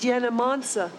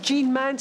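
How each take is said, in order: First: Every letter is sounded out, Polish-style. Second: The name is said with French sounds. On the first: The speaker calls it wrong. "she said Jena Mansa" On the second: The speaker calls it right. "instead of Jean Mance"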